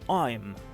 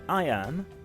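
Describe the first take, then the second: First: It is said as one contracted syllable. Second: It is said as two separate syllables. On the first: "en une syllabe" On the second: "deux syllabes"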